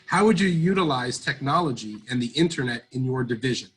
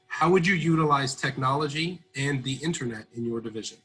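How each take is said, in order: First: It is said loudly. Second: It is said at normal volume.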